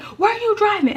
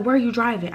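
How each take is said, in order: First: High-pitched mock shriek; imitated screaming. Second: Said in the usual way. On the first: Mom questioning her child after the accident, imitated screaming. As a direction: shriek the question like an alarmed mother. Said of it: "now she's screaming".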